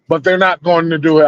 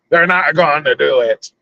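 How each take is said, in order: First: It is said in his normal voice. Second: It is said in a Jack Sparrow pirate voice.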